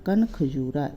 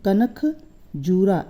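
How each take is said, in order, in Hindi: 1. शब्द को अक्षर 'kan' के बाद तोड़ा जाता है। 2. शब्द को अक्षर 'kanak' के बाद तोड़ा जाता है। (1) "इस तरह से पढ़ेंगे" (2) "ऐसे नहीं पढ़ेंगे"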